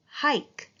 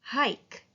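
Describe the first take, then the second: First: "Hike" repeated higher with a long I; teacher repeating the word. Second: "hike" with a long I; teacher modelling long I. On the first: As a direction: lengthen the I in "Hike". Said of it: "One more time". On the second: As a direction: stretch the I in "hike". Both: Shown as a demonstration.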